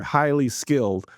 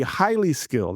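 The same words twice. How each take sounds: First: "highly skilled" slowed, each word leaned on; "highly skilled" drawn out and weighted; stress on highly skilled. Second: Said in the usual way. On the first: Shown as a demonstration. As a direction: press hard on "highly" then "skilled". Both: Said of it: "I'm gonna emphasize this word".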